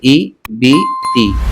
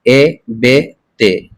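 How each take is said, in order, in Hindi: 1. स्वर साफ़ और ऊँची 'ee' जैसी आवाज़ के होते हैं। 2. स्वर नीची, 'ay' जैसी आवाज़ के होते हैं। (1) "मारूफ का मतलब है हम इसको ऐसे पढ़ेंगे" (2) "इसको हम ऐसे नहीं पढ़ेंगे"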